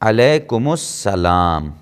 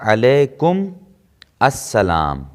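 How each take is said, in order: First: The two words are joined with a linking vowel. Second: The two words are said separately. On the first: This is the proper spoken form. "ये इसका सही तलफ़ुज़ होगा" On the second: This is the underlying original form. "ये जो है असलन था अलैकुम अस्सलाम"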